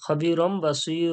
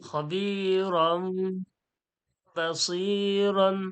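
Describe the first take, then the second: First: The last word ends with a long vowel. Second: The last word ends with an n sound. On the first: The reading stops at this word. "ওয়াক করলে বাসীর হয়ে যাবে" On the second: The reading continues without stopping. "এটা জুড়িয়ে পড়লে বাসীরন হচ্ছে"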